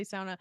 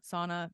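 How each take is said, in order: First: "sauna" said as "sow-na", first syllable like cow; her own sauna. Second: "Sauna" said as "sah-na", with a broad ah; quoting how everyone else says "Sauna" with the ah sound; others' sauna. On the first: Shown as a demonstration. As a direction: speaker says her family's "sauna" with the ow sound. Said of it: "I say sauna". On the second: Retold or imitated. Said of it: "Everyone else is like".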